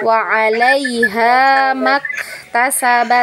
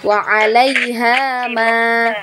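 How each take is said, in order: First: The vowel of ma is short, linked onward. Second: The vowel of ma is held long. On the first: The reading continues into the next word. "tapi kalau kita wasalkan bacaannya" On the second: The reading stops after this word. "Kalau berhenti di situ kita baca panjang ma-nya ya"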